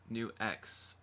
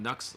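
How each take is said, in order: First: The name is said as two separate syllables. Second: The name is said as one short syllable. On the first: The speaker calls it right. "New X is pronounced like New X" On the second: The speaker calls it wrong. "I was calling it Nux this whole time"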